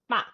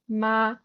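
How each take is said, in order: First: The pitch falls across the syllable. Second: The pitch stays level throughout the syllable. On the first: "You can go down as well" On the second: "very, very neutral, just stays on the same level"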